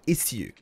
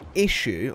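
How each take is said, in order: First: The middle consonant is a sharp s sound. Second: The middle consonant is a soft sh sound. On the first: "a much more defined S" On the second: "as though there's a the letter H in there"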